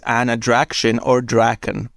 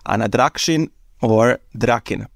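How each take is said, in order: First: The name is said with an American pronunciation. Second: The name is said with a Serbian pronunciation. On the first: "that is an Americanized pronunciation" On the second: "In Serbian, we would read that as"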